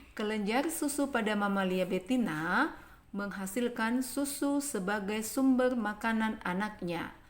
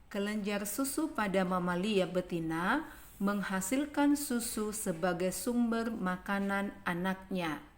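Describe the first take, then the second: Both takes have the same delivery.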